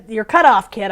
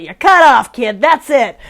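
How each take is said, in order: First: Said in the usual way. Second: Louder mock cut-off, punched up; playful added spin. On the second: Tarot reader jokingly cutting off a kid, playful spin. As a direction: put a joking, emphatic spin on it. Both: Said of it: "I should put, like, a little spin on it".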